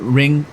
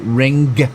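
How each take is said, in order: First: The final g is not separately heard. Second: The final g is clearly released. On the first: "instead of ring" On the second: "they'll say ring, and and really pronounce the G on the end"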